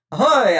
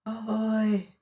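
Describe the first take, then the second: First: Loud hail into the dark; shouted. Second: A softer, distant echo of the call; fainter echo. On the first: Martin hailing the unseen voices with a shout. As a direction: call out hard to whoever hides there. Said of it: "I shouted". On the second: The cave echo answering Martin, faint and far off. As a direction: let it fade like a far echo. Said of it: "though much fainter". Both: A narrator's reading.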